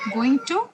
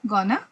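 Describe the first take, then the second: First: Both words are said fully and separately. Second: The words blend into one reduced word. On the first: It is formal enough for an interview. The speaker calls it right. "so in an interview, only going to" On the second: It is very informal speech. The speaker calls it wrong. "but that's very informal"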